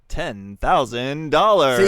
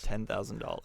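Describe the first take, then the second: First: It is said like a game show host. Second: It is said in an ordinary voice.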